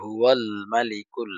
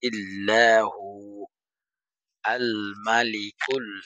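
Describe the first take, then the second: First: The words run together without a stop. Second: There is a stop after hu. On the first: "এটা মিলে পড়লে" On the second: "এখানে ওয়াকফ করলে"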